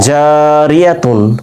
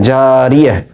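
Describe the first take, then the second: First: The word ends with a 'tun' sound. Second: The word ends with a soft 'h' sound. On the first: The reading continues on without a stop. "মিলে পড়লে" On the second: The reader stops at this word. "থেমে যাওয়ার কারণে"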